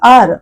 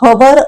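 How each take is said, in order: First: The word begins with a vowel sound. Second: The word begins with an H sound. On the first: The speaker calls it right. "आर असं म्हणतो" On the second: The speaker calls it wrong. "हवर असं नाही म्हणत"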